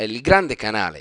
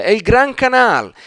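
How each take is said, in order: First: Said in the usual way. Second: "Gran Canal" said the Venetian way, clipped with no final vowels, raised and louder; Venetian pronunciation. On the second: Shown as a demonstration. Teacher showing viewers the local Venetian name, Gran Canal said higher and louder. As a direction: proudly give the local name "Gran Canal", dropping the endings of grande canale. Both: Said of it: "come dicono lì".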